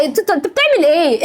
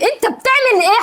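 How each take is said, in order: First: Said in the usual way. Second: Higher, sharper "بتعمل" thrown at him; indignant repeat, pitch jumping up on "بتعمل"; raised demand. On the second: Real, not acted. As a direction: press the question harder, voice climbing.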